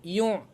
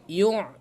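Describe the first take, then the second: The two takes are said the same way.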